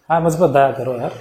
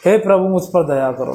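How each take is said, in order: First: Offhand and low, like chatting with a friend; casual, careless. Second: Lower, pleading cry to God; pleading prayer. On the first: Wrong way, praying to God like a buddy, offhand. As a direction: toss the prayer off lazily. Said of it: "ऐसे बोलेंगे?". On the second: A person in trouble begging God for mercy, pleading. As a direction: beg the Lord for mercy. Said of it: "भाव देखो इसमें". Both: Shown as a demonstration.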